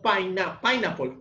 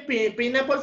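First: The stress falls on the first syllable. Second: The stress falls on a later syllable. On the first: The speaker calls it right. "sino pineapple, con acento en la primera sílaba" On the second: The speaker calls it wrong. "no se dice pineapple"

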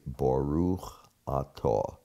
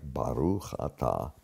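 First: It is said in a standard Ashkenazi Hebrew accent. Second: It is said in a Sephardic Hebrew accent.

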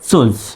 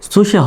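First: It is said as one syllable ending in z. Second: It is said as two syllables ending in a vowel. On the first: The speaker calls it right. "হবে হলো সুজ" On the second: The speaker calls it wrong. "সুশে হবে না"

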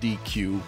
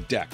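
First: The word does not sound like deck. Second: The word sounds like deck. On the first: The speaker calls it wrong. "It's not DQ" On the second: The speaker calls it right. "it's a deque, like a deck of cards"

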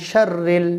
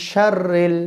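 Both takes have the same delivery.

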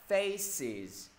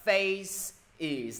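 First: The final syllable is joined smoothly to the word. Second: The final syllable is said as a separate word. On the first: The speaker calls it right. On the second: The speaker calls it wrong. "mọi người không thể đọc là face is, no"

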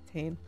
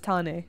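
First: The name is said with English pronunciation. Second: The name is said with Maori pronunciation. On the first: The speaker calls it wrong. "not as Tane" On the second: The speaker calls it right. "my name is actually correctly pronounced as Tane"

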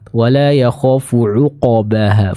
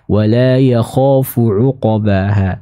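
First: The q sound has a weak, clipped echo. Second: The q sound echoes fully toward an 'a' vowel. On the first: The speaker calls it wrong. "ini kurang tepat" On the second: The speaker calls it right. "qalqalah dia lebih dekat ke fathah"

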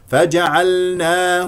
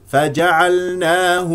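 The two takes are said the same way.

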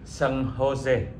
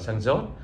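First: The J is said as an H sound. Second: The J is said as an English J sound. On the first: The speaker calls it right. "phải gọi như vậy thì mới đúng" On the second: The speaker calls it wrong. "hồi xưa chúng tôi mới qua thì San Jose người ta gọi là"

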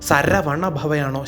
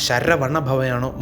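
No difference in how they are said.

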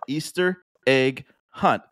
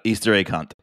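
First: Each word is spoken clearly and kept separate. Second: The words are slurred quickly into one another. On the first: The speaker calls it right. "I think it's important to say it just like that" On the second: The speaker calls it wrong. "I didn't enunciate there"

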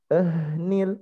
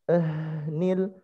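No difference in how they are said.

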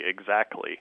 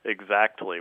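First: The T sound is dropped. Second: The T sound is clearly pronounced. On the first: "She says that it should be exactly" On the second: "with pronunciation on the T"

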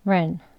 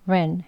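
No difference in how they are said.

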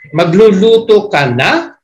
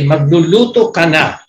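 First: The voice rises at the end, like a question. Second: The voice falls at the end, like an order.

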